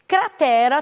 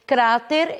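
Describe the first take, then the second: First: Cratera stressed on TE; Portuguese pronunciation. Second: Cráter stressed on CRA; Spanish pronunciation. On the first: Teacher giving the Portuguese word, stress on TE. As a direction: hit TE in Cratera, three syllables. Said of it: "nós diríamos cráter". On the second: Teacher giving the Spanish word, first-syllable stress. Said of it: "nós diríamos". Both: Shown as a demonstration.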